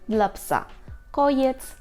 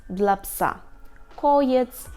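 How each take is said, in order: The two takes are said the same way.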